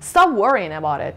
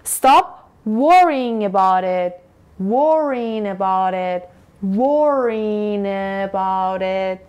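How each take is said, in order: First: The phrase is said at normal, faster speed. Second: The phrase is said slowly, in slow motion.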